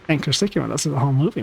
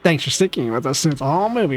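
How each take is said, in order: First: The voice sounds nasal. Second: The voice sounds plain, not nasal.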